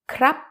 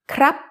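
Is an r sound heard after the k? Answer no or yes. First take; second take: yes; yes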